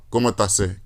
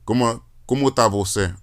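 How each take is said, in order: First: "você" shortened to just "cê"; colloquial contraction. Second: "você" said in full, two syllables; full pronunciation. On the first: Showing how Brazilians really ask it, "você" cut to "cê". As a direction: drop the first syllable of "você", saying only "cê". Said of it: "They'll say, uh". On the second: Showing what Brazilians won't say, "você" in full. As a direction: keep both syllables of "você" in the question. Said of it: "And they won't say". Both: Shown as a demonstration.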